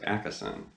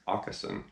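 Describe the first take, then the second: First: The name is said with an English-style pronunciation. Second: The name is said with a Swedish pronunciation. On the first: The speaker calls it wrong. "I always pronounced his last name Akesson" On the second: The speaker calls it right. "the correct Swedish pronunciation is actually Åkesson"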